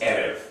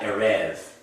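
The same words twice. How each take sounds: First: The stress is on the first syllable. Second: The stress is on the second syllable. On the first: The speaker calls it right. "It's erev" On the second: The speaker calls it wrong. "not erev"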